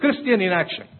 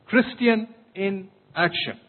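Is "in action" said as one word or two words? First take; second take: one word; two words. First: In and action run together as one word. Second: In and action are separated as two words. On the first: The speaker calls it wrong. "a two-word concept" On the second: The speaker calls it right. "Three words"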